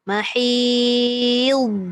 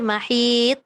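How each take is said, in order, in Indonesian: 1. Konsonan akhir itu tebal dan ditutup perlahan. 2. Konsonan akhir itu terputus tiba-tiba. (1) "dia tebal dan dia punya perjalanan tu lambat bunyi tu" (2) "mati terus"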